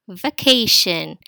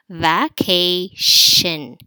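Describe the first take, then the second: First: "vacation" slow and loud in one piece; drawn out. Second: "Vacation" loud, as va, kay, shin with pauses; three slow separate beats on "Vacation"; split into syllables. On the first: Teacher introducing the next word, slow and drawn out. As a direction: stretch "vacation" slowly without breaking it. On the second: Teacher isolating the final shin, slowly split into syllables. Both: Shown as a demonstration.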